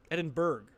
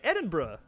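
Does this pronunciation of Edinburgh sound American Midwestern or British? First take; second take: American Midwestern; British. First: It is said with a Midwestern American pronunciation. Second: It is said with a British-style pronunciation. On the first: The speaker calls it wrong. "that seems like really Midwesterny" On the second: The speaker calls it right. "Okay, Edinburgh. I can do that"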